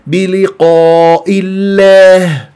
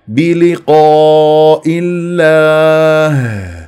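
First: The long a vowel is tilted toward e. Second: The long a vowel is full and heavy. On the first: The speaker calls it wrong. "ممالة ... غلط" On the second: The speaker calls it right. "والألف تفخم تبعا للقاف"

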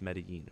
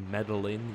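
First: The double L is said as a Y sound. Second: The double L is said as an English L. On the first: The speaker calls it right. "There's two L's and it's Spanish, so it's Medellin" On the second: The speaker calls it wrong. "You don't say Medellin"

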